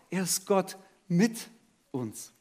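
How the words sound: The word mit carries the main stress. God has come to be with us.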